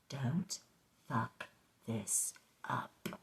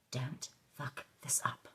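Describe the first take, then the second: First: Very slow, word by word; quiet, heavily spaced self-warning; ramming it home. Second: Softly spoken self-warning; stern self-talk. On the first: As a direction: space out each word to drum it in. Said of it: "say it twice to really ram it home". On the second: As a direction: give yourself a quiet, slow talking-to. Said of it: "I had a little talk with myself". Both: Acted.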